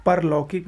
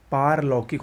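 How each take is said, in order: First: परलौकिक with short "par"; wrong pronunciation. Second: पारलौकिक with long "paar"; correct pronunciation. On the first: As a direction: keep the first vowel of परलौकिक short. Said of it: "गलत है". (परलौकिक में छोटा "पर") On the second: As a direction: hold the first aa of पारलौकिक. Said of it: "होता है". (पारलौकिक में लंबा "पार") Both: Shown as a demonstration.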